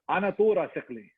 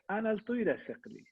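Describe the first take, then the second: First: It is said in a rough Arab Assyrian accent. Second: It is said in a cute Iranian Assyrian accent.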